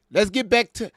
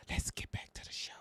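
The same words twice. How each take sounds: First: Said in the usual way. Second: Mocking hushed whisper; teasing stage whisper. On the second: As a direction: whisper it like a joke secret. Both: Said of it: "she the one that's talking like that".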